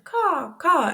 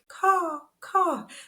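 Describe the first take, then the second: First: The crow sound is said more loudly. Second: The crow sound is said very quietly.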